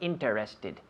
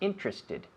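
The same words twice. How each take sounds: First: The word is said with four syllables. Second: The word is said with three syllables. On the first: "Instead of" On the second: "Most people say that in three syllables"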